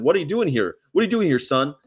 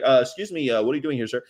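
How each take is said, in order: First: Mock challenge from a cop, pitched up; imitated gruff-talking cop. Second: Hesitant, courteous officer's question; imitated polite cop. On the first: Cop rolling up on a driver, mock brusque challenge. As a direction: question him like an old-time officer. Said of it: "they didn't talk like that". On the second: Cop approaching a driver, mock-polite hesitant inquiry. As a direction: ease into the question respectfully. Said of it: "They used to talk like that to me".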